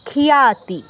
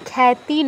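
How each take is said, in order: First: A clear y glide follows the kh sound. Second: The kh runs straight into the vowel. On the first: The speaker calls it right. "খিয়া" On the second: The speaker calls it wrong. "খ্যাতি নয় কিন্তু"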